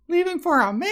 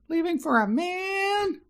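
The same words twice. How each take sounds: First: It is shouted loudly, as in all caps. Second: It is said at normal volume.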